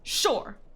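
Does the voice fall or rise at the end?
fall. The voice falls firmly at the end. It is a firm yes. "it's a solid, like, yes"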